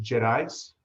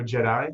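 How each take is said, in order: First: JEDIS with a sounded S at the end; "Jedis" with the last S voiced out, not silent; final S pronounced. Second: JEDI ending on the open vowel, no S; "Jedi" French-style, last S left silent; silent final S. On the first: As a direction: say "Jedis", ending on a clear S. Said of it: "Is the S pronounced in that?". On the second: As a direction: say "Jedi", dropping the S at the end. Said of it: "where the S is, is, is silent". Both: Shown as a demonstration.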